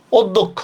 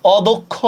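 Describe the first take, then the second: First: "অধ্যক্ষ" with rounded o and doubled d, od-dokkho; closed o at start. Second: "অদক্ষ" with open aw and single d, aw-dokkho; open ɔ at start. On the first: Teacher demonstrating the first word to students, "অধ্যক্ষ" as od-dokkho. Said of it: "এইটার উচ্চারণ আমরা এভাবে করি". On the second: Teacher demonstrating the second word to students, "অদক্ষ" as aw-dokkho. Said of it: "দ্বিতীয়টার উচ্চারণ আমরা কিভাবে করি". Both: Shown as a demonstration.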